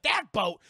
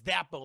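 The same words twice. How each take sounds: First: Loud, higher, mock disbelief; incredulous question. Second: Said in the usual way. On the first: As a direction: echo it back in retold alarm. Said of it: "Jack's like". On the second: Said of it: "he goes".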